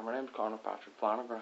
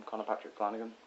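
First: Badly faked Irish accent. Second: Said in the usual way. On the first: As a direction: introduce yourself in a poor Irish accent. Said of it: "Can't do an Irish accent very well". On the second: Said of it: "Can't do an Irish accent".

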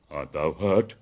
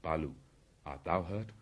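First: Loud, low, concerned question; concerned bear. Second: Low-key question after battle; lightly voiced panther. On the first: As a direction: ask with big-bear force. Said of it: "hugging him softly". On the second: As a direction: ask it evenly, at modest volume. Panther asks bear if hurt. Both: A narrator's reading.

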